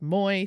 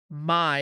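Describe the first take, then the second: First: The syllable is pronounced like "moy". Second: The syllable is pronounced like "my". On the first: "instead of moy" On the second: "a little bit more like my instead"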